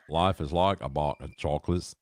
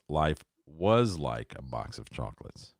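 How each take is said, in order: First: Said in the usual way. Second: Slow, with weight on "was"; stress on was. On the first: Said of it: "is not what Forrest Gump". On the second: Shown as a demonstration. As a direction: lean on "was" in the line. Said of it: "If you listen closely, he says".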